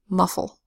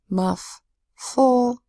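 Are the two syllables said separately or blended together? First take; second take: blended; separately. First: The syllables are blended with one F sound. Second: The syllables are said apart with two F sounds.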